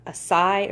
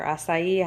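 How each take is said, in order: First: "acai" tried as a shorter ah-SIGH; tentative pronunciation. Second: "acai" tried as ah-sigh-EE; alternative pronunciation. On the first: Shopper guessing how a new product's name is said, tentative "acai". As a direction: say "acai" unsurely, ending on SIGH. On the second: Shopper offering another guess at the product's name, alternative "acai". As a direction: say "acai" with an extra final EE. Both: Shown as a demonstration. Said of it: "I think you say that".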